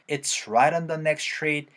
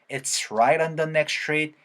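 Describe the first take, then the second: First: The t is said as a clear t. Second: The t is flapped, linking into the vowel. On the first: "이렇게도 얘기할 수도 있겠지만" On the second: "해도 들어볼 수 있어야 된다"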